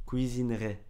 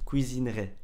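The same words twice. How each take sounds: Both takes have the same delivery.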